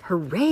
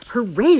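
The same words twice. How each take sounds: First: Restrained bear cheer; a modest hooray at the speaker's own pitch; mild yell. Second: High, loud hooray; shouted cheer. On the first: Bear cheering the feast, mild yell. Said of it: "yelled Bear". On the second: All the other animals cheering the feast, high shout. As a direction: shout it like a whole crowd cheering. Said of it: "shouted the other animals". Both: A narrator's reading.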